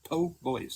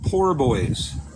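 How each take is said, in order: First: The first word is said without an R sound. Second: The first word is said with an R sound. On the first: The speaker calls it right. "there's no R" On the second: The speaker calls it wrong. "call it poor boys"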